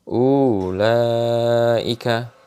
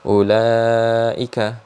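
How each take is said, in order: First: The first vowel is drawn out long. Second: The first vowel is kept short. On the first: The speaker calls it wrong. "Jadi dipanjangkan karena di situ ada wawunya" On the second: The speaker calls it right. "Jadi ulaika, jangan dibaca ulaika"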